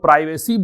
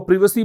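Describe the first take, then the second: First: The first vowel sounds like the word eye. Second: The first vowel is a short i sound. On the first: "American English में इसको प्राइवेसी बोलते हैं" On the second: "इसको प्रिवेसी बोलते हैं"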